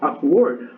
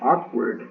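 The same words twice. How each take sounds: First: The stress is on the second syllable. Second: The stress is on the first syllable. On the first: "Él se lo estaba dando en word, que es la segunda sílaba" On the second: "En la primera pronunciación que yo dije awkward, es donde estoy dando en esa primera sílaba el acento"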